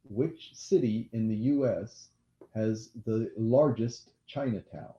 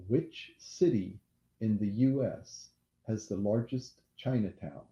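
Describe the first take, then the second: No difference in how they are said.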